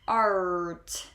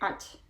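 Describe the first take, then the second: First: The R sound is strong and clear. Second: The R sound is weak and unclear. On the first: The speaker calls it right. "we pronounce that R very clearly" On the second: The speaker calls it wrong. "So we don't say art"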